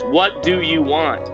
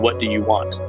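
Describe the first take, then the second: First: It is screamed loudly. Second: It is said at a quieter, normal volume.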